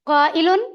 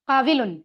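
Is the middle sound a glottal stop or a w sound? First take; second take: glottal stop; w sound. First: The middle consonant is a glottal stop. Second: The middle consonant is a w sound. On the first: This is how the word is actually read. The speaker calls it right. "काविलुन की जगह हम इसको काइलुन पढ़ते हैं" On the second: This is the underlying form built from the root. The speaker calls it wrong. "दूसरी तरह से अगर देखा जाए क्रिटिकली तो बनता है काविलुन"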